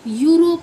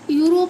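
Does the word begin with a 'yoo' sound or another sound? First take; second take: yoo sound; another sound. First: The word begins with a 'yoo' sound. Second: The word does not begin with a 'yoo' sound. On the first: The speaker calls it right. "होता है" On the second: The speaker calls it wrong. "नहीं होता"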